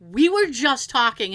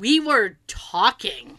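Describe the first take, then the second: First: Louder, emphatic protest; firm retold denial at normal speed; insistent. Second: Slow, louder, drawn-out protest; insistent denial. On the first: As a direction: insist on your innocence. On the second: Retold or imitated. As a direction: stretch it out and push each word. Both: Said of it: "I just got really insistent".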